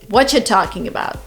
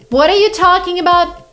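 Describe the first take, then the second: First: What are you is run together as whatcha. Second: Every word of what are you is said fully.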